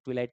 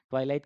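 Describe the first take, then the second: First: ट्विलाइट with TWI as in "twig"; short i at the start of ट्विलाइट; short-i first syllable. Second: ट्वाइलाइट with TWY as in "eye"; first syllable of ट्वाइलाइट rhymes with "why"; long-i first syllable. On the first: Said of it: "कुछ लोग ट्विलाइट कहते हैं". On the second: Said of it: "ट्वाइलाइट कहते हैं या फिर". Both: Shown as a demonstration.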